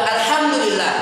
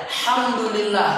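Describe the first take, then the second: First: Alhamdulillah with its opening "al" fully sounded; correct full form. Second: Alhamdulillah said casually as "hamdulillah"; hamzah dropped. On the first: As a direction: sound the initial hamzah, "al-hamdulillah". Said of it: "Yang benar apa?". (alhamdulillah lengkap dengan hamzah di awal) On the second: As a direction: drop the opening "al" from alhamdulillah. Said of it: "Ngomong saya". (alhamdulillah tanpa hamzah, jadi "hamdulillah") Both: Shown as a demonstration.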